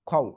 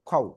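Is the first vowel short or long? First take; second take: short; short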